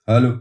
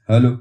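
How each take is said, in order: Both takes have the same delivery.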